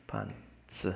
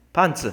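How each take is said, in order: First: Breathy whisper, much softer. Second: Punchy loud exclamation. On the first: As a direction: hush the word to nothing. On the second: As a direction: blurt it out louder. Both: Pretend. Whispered then shouted word.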